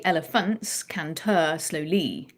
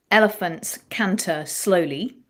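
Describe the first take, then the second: First: "Elephants canter slowly" slowly, accents thrown onto each last syllable; awkward, deliberate end-syllable stress on "Elephants canter slowly"; deliberately wrong stress. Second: "Elephants canter slowly" said slowly, first syllable of each word accented; measured demo phrase, stressing EL in Elephants, CAN in canter, SLOW in slowly; natural word stress. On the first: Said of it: "try deliberately to get it wrong". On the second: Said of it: "that has three accented syllables". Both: Shown as a demonstration.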